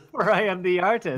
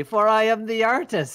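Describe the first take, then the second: First: Lighter villain proclamation through a laugh; half-laughing mock villain line. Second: Villain voice. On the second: Pretend. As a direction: proclaim it like a gloating villain. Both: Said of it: "you have a villain voice".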